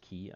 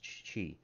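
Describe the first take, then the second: First: The word begins with a k sound. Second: The word begins with a ch sound. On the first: "I've heard it pronounced ki" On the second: "I have heard it pronounced chi"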